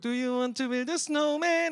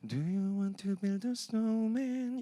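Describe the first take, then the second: First: It is said in a bright, happy voice. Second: It is said in a quiet, sad voice. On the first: The speaker is cheerfully inviting someone to play. "굉장히 기쁘게 밝은 목소리로" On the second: The speaker is struggling and begging for company. "되게 슬픈 목소리로"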